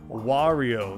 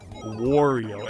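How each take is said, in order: First: The first syllable sounds like 'wah'. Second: The first syllable sounds like 'war'. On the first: The speaker calls it right. "Where it's Wario" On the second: The speaker calls it wrong. "not Wario"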